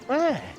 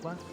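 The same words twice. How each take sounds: First: The word is said in a high voice. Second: The word is said in a low voice. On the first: "a higher pitch from the preacher" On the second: "it's a lower voice for for um Owen Wilson"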